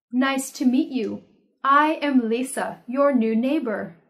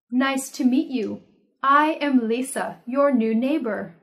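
No difference in how they are said.

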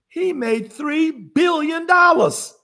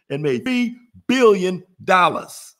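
First: Higher, slow, each word of "three billion dollars" leaned on; emphatic reveal. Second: Slow, firm "three billion dollars" with billion stressed; emphatic repeat. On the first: Wowing livestream viewers with the Trump figure, slow and emphatic. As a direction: land "three billion dollars" slowly for impact. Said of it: "You want me to say that again?". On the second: Repeating the point so viewers really get it, slow and firm. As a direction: hammer "billion" home again. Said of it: "so you can really get it". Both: Shown as a demonstration.

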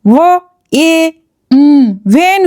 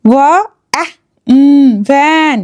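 First: ওয়া, এ, উম apart, then ভ্যান turned into "vane"; wrongly sounded-out word. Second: ওয়া, অ্যা, উম apart, then ভ্যান with short "a"; sounded-out word. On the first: Teacher showing a wrong reading, word sounded out with "ay". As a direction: sound out ভ্যান with an "ay" vowel, like "vein". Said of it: "এরকম করে যদি পড়ে". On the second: Teacher repeating the correct reading, word sounded out slowly. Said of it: "এখানে এ sound কী রকম হলো". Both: Shown as a demonstration.

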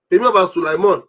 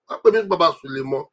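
First: Sulaiman said in full and firm, not shortened to Sule; correcting the name to Baba Sulaiman; full name stressed. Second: Said in the usual way. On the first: Shown as a demonstration.

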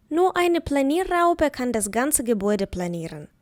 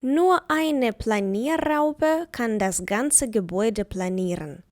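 First: Said in the usual way. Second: Slow, careful dictation of the sentence; slow example. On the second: Shown as a demonstration. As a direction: spell it out slowly for the class. (повільно, чітко, по словах)

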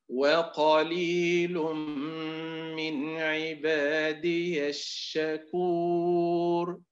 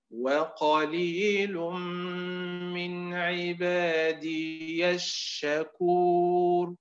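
First: وقليل من عبادي الشكور chanted slowly with عبادي short before الشكور; slow chant, no long vowel after عبادي; correct recitation. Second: وقليل من عبادي الشكور chanted slowly with عبادي drawn long like يا الشكور; slow chant, a long vowel added after عبادي; wrong recitation. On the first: Teacher reciting the correct reading for students, slow. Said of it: "الأداء المستقيم". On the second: Teacher showing the deviant reading, slow chant. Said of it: "الأداء المنحرف". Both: Shown as a demonstration.

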